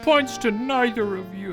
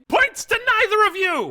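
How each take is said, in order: First: The speaker sounds sad and hurt. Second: The speaker sounds happy and pleased.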